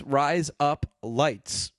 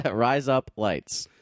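First: Very slow Australian "Rise Up Lights"; slow Australian accent. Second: Slow, drawn-out Australian "Rise Up Lights"; slow Australian accent. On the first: Showing listeners at home the trick, slow Australian accent. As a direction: spell out "Rise Up Lights" slowly, the Aussie razor blades. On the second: Repeating the Aussie razor blades trick, slow Australian accent. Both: Shown as a demonstration. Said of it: "your Australian accent to say the word razor".

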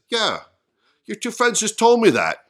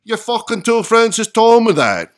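First: Raised-pitch, louder retort as Peter; joke punchline. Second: Loud, high attempt at a Scottish accent. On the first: Acted. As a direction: fire the punchline back, high and loud. Punchline first delivered in Peter's voice. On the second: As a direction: belt out the punchline in a put-on Scottish accent. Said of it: "let me do my Scottish accent".

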